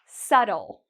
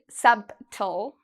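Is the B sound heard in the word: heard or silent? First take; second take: silent; heard. First: The B sound is silent in the word. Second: The B sound is pronounced in the word. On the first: The speaker calls it right. "you don't need to worry about the B again" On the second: The speaker calls it wrong. "We don't say subtle"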